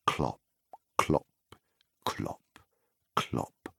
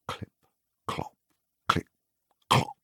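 First: Clops fading to a soft, breathy whisper; hushed hoofbeats. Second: Said in the usual way. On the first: A narrator's reading. Narrator sounding the rider's hooves, softer to a whisper. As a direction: let the hooves sink into a hush.

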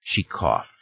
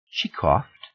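First: "She coughed." as a statement, falling at the end; "She coughed." dropping on "coughed". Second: "She coughed?" as a question, rising at the end; "She coughed?" with "coughed" swung upward; questioning echo. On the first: Confession, then echoed as question. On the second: Listener echoes confession in disbelief. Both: Acted.

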